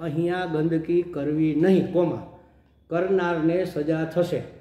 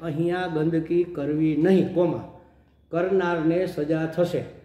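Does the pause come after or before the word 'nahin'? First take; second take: after; after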